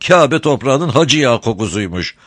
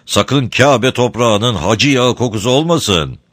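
First: High, sweet-talking crafty smuggler; sly, sugary old rogue; honeyed voice. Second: Said in the usual way. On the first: A narrator's reading. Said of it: "tatlı konuşuyor".

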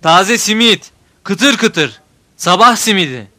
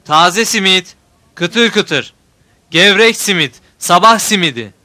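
First: Loud singsong street vendor cry; melodic street vendor shout. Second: Loud singsong hawker's cry; melodic street vendor shout. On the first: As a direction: call out fresh simit to the street. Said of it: "Cevat bağırıyor". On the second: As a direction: shout it like a simit seller. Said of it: "Ben de bağırıyorum onun gibi". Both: A narrator's reading.

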